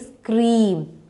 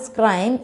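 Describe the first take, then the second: First: The vowel is a long ee sound. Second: The vowel is a short i sound. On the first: The speaker calls it right. "It's actually scream" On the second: The speaker calls it wrong. "You're getting I sound"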